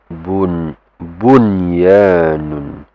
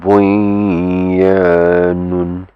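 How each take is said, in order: First: The n sound is pronounced clearly and separately. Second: The n sound merges into the following y. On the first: The speaker calls it right. "it's bun bunyanun ... It will be just pronounced clearly" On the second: The speaker calls it wrong. "It's not bunyanun"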